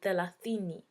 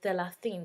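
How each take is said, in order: First: The word ends with a final 'i' vowel. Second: The word ends without a final vowel. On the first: This is the Swahili form. "we say thelathini" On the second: This is the Arabic form. "they say thelathini. They don't put the I in them"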